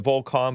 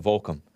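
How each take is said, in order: First: "Volcom" with a full "kahm" second syllable; preferred pronunciation. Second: "Volcom" with a weak "kum" ending; others' pronunciation. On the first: Host showing how he likes saying the brand, "Volcom" ending in "kahm". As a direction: say "Volcom" as VOHL-kahm, both vowels full. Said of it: "I like pronouncing it Volcom". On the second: Host showing how some people say the brand, "Volcom" ending in "kum". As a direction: say "Volcom" as VOHL-kum, second vowel reduced. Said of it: "some people call it Volcom". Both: Shown as a demonstration.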